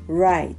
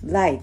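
First: The word begins with an English R sound. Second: The word begins with an L sound. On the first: The speaker calls it right. "右という単語right" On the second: The speaker calls it wrong. "これをlight、light っていう風に発音してしまう日本語話者って多い"

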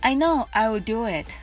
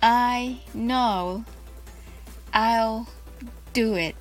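First: It is said fast. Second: It is said slowly.

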